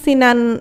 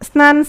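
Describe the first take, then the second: First: An i vowel sits between the s and n. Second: The s and n are joined with no vowel.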